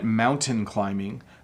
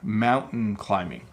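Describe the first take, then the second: First: The T in mountain is clearly pronounced. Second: The T in mountain is almost dropped.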